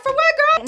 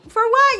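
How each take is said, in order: First: Very high, mock-innocent for what girl; playing dumb. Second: High, innocent for what; playing dumb. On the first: Pretending not to know why her friend apologizes, very high. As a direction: squeak it out like you know nothing. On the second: Teasing her apologizing friend, playing dumb and high. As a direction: feign innocence in a sky-high voice. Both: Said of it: "I'm acting all stupid".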